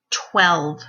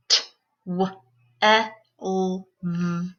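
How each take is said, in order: First: Said in the usual way. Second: TWELVE split into five separate sounds; t... w... eh... l... v, each on its own; sounded out phonemes. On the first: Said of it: "put those sounds into a word". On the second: Shown as a demonstration. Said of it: "say the sounds in the word".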